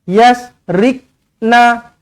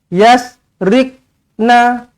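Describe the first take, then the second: Both takes have the same delivery.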